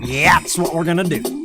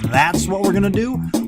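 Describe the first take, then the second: First: Initial consonants are swapped for a Y sound. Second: The words are said with their normal consonants. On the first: "We're swapping them out with Y" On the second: "instead of saying"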